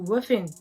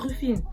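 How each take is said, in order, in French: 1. Le nom est dit avec un accent américain. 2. Le nom est dit avec un accent français. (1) "aux States, ils vont dire Wuffin" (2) "comment on le prononce en français, on va dire Rufine"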